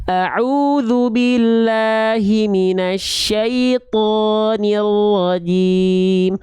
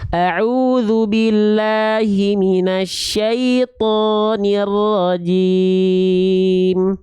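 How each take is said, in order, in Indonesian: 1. Vokalnya diucapkan dengan mulut terbuka, tidak monyong. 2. Vokalnya diucapkan dengan mulut terbuka, tidak monyong.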